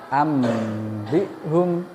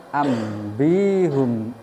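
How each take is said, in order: No difference in how they are said.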